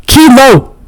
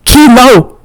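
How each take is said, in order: First: Shout. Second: High, louder name more coughed than yelled. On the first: Rico calling his dog off the fight, high shout. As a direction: call your dog off sharply. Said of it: "Rico shouts". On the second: Rico calling his dog off, coughing the name out. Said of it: "more a cough than a yell". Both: A narrator's reading.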